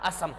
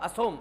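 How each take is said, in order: First: The second syllable has an 'a' vowel. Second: The second syllable has an 'o' vowel. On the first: "लेकिन हम असम बोल रहे हैं हमारे राज्य के अकॉर्डिंग" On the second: "कई जगह पर इसको असम की जगह असोम लिखा होगा"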